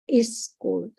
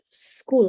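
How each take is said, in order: First: A vowel is added before the s sound. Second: The word starts directly with the s sound. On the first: The speaker calls it wrong. "So it becomes two syllables" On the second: The speaker calls it right. "it should be like school"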